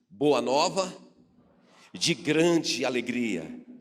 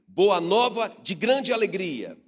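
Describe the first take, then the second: First: It is said in a plain, neutral way. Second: It is said with great joy.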